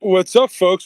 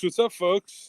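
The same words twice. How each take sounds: First: Booming show-opener greeting; loud greeting. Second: Said in the usual way. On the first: Acted. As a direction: shout the hello, pitched up. Angry Steve greets the show loudly.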